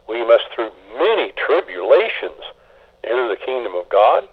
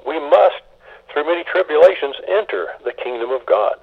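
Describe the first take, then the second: First: "through many tribulations" leaned on as the weight of the verse; stress on through many tribulations. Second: "must" lifted high with a rising, hopeful tune; stress on must, hopeful. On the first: Pastor showing the pessimist's reading of the verse, stress on tribulations. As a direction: read "many tribulations" as the burden. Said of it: "Is that how you emphasize it". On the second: Pastor showing the optimist's reading, rising and hopeful. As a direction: read "We must" as a confident promise. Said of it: "In a more positive vein". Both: Shown as a demonstration.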